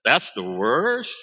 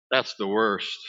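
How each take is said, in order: First: Slow, disbelieving "That's the worst?" drawn out as a question; incredulous echo. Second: Said in the usual way. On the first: Retold or imitated. Comedian mocking the mother's complaint, slow and disbelieving. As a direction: stretch out the worst like you can't believe it. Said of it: "I wish I could do it like he did". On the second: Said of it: "And the mother said".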